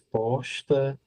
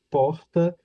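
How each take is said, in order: First: The consonant before the T is an S. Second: The consonant before the T is an R. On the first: "diz posta, é, substituem o, o, o R pelo S" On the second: "ao invés de dizer porta"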